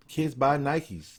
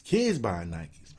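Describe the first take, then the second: First: Slow, with "buy" hit hardest; slow and weighty, "buy" the key word; stress on buy. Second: Put-on slow repeat, "Kids" stressed first. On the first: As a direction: lean on "buy" in "Kids buy Nikes". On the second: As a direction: lean on "Kids" in "Kids buy Nikes". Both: Shown as a demonstration.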